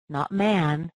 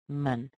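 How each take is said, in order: First: The vowel is a full open a sound. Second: The vowel is a reduced uh sound. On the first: The speaker calls it wrong. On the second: The speaker calls it right. "the sound gets replaced with this little uh sound"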